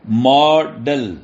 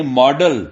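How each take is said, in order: First: "ماڈل" drawn out as two separate beats; split into syllables. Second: Said in the usual way. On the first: Shown as a demonstration. Teacher breaking a word into syllables for students, "ماڈل" slowly split. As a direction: say "ماڈل" very slowly, mo then del, with a gap. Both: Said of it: "syllable کہتے ہیں".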